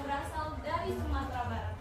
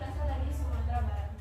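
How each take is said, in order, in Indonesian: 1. Diucapkan dengan nada hidup dan bervariasi. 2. Diucapkan dengan nada datar dan biasa. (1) "itu beda" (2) "dengan nada biasa saja"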